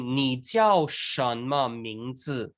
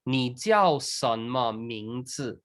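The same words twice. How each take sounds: First: 什么 begins with an 'sh' sound. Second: 什么 begins with an 's' sound. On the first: "instead of saying" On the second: "Some people pronounce s instead of sh"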